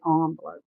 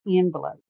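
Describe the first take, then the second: First: Envelope said as "ON-velope"; softly said, fancy "ON-velope" for envelope; fancy pronunciation. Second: Envelope said as "EN-velope"; everyday "EN-velope" for envelope; usual pronunciation. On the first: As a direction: start "envelope" with an AHN sound. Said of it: "I'm not fancy like that". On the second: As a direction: start "envelope" with EN as in pen. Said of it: "I always pronounce it envelope". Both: Shown as a demonstration.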